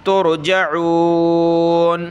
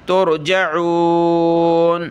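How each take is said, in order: No difference in how they are said.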